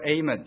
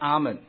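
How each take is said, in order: First: It is said with American English pronunciation, 'ay-men'. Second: It is said with Chinese pronunciation, 'a-men'. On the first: This is how Americans say the word. "美国人说Amen" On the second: This is closer to the original pronunciation. "我们说阿门"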